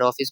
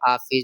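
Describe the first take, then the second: First: The first vowel is a rounded 'aw' sound. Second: The first vowel is an open 'ah' sound. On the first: This is the standard English-based pronunciation. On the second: This is how people in Bihar say it.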